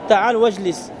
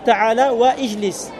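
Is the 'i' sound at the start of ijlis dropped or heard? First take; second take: dropped; heard. First: The words link and the initial i is silent. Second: The initial i is pronounced separately after wa. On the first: The speaker calls it right. "On n'entend pas" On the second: The speaker calls it wrong. "Ce serait faux de dire"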